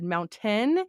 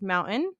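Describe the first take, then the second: First: The middle t is clearly released. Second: The middle t is a glottal stop. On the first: This would sound odd in the speaker's area. "if I tried to pronounce it correctly" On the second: This is how people in the speaker's area say it. "I have a glottal stop"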